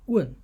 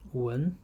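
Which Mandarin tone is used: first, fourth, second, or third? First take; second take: fourth; second. First: The syllable is said with the fourth tone. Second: The syllable is said with the second tone.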